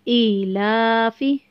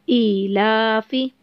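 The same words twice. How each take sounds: The two takes are said the same way.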